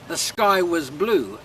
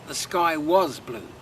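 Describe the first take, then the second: First: The word 'was' is reduced and weak. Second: The word 'was' is fully and strongly pronounced. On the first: The speaker calls it right. "normally pronounced whiz in speech" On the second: The speaker calls it wrong. "and not"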